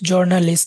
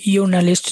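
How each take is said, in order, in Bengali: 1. শুরু হয় j ধ্বনি দিয়ে, ইংরেজি ঢঙে। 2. শুরু হয় y ধ্বনি দিয়ে, জার্মান ঢঙে।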